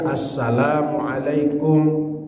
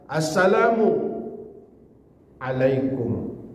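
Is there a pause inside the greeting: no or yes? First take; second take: no; yes. First: The greeting is said smoothly without a pause. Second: The greeting breaks with a short pause inside. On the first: The speaker calls it right. "Mesti assalamualaikum" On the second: The speaker calls it wrong. "Sakta itu berhenti sebentar, kemudian lanjut. ... Nah, berhenti pula sebentar. Tidak boleh"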